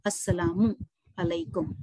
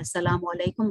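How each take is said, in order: First: A full 'u' ends assalamu, then 'alaikum' follows. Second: The vowels are clipped and 'alaikum' becomes 'walekum'. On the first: The speaker calls it right. "अस्सलामु अलैकुम होना चाहिए" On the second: The speaker calls it wrong. "अस्सलाम वालेकुम गलत"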